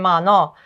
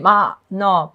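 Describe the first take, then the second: First: The word runs smoothly without a break between syllables. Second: The word is split with a break between syllables. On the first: The speaker calls it right. "People say, say ma no ... So it's just simpler" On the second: The speaker calls it wrong. "people don't say ma no"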